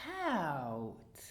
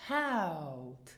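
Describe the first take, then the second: First: Haut with a short clipped ow; Haut, brief vowel. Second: Haut with a long drawn ow; Haut, long vowel. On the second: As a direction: stretch the ow in Haut. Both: Shown as a demonstration. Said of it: "Do you hear the difference between".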